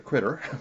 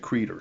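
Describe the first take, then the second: First: The first vowel sounds short, like in 'it'. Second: The first vowel sounds long, like in 'eat'.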